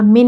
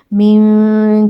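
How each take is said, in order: First: Said in the usual way. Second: من with the ن hidden in a nasal hum; hidden nun with ghunna. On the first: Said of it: "یہاں من نہیں پڑھنا آپ نے". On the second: Shown as a demonstration. Teacher contrasting the wrong من with the nasalised one. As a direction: soften the ن of من into a nasal glide. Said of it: "بلکہ من جو اس طرح کر کے غنہ کے ساتھ".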